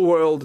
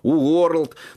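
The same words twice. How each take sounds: First: It is said with a natural, smooth vowel. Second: It is said with sounds read from spelling. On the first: The speaker calls it right. "нормально" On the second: The speaker calls it wrong. "У него всякий world появляется"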